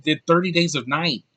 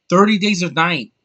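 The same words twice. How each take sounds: First: Said in the usual way. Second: Thirty Days of Night repeated higher and louder, hitting Thirty; disbelieving repeat. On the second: Shown as a demonstration.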